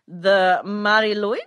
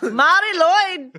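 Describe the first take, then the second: First: The name is said at a normal volume. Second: The name is yelled loudly.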